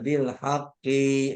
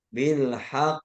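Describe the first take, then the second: First: The ending of the word is drawn out long. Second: The ending of the word is kept short. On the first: The speaker calls it wrong. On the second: The speaker calls it right.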